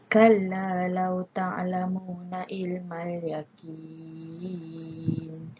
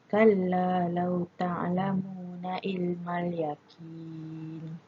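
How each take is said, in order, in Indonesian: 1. Vokal panjang pada 'yaqin' dibaca enam harakat. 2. Vokal panjang pada 'yaqin' dibaca dua harakat. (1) "Kalau enam harakat pula" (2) "kalau kita baca panjang dengan dua harakat"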